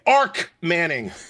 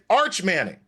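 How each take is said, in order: First: The first name ends with a 'k' sound. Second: The first name ends with a 'ch' sound. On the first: The speaker calls it wrong. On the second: The speaker calls it right.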